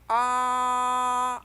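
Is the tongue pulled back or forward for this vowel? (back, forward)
back. The vowel is made with the tongue pulled back.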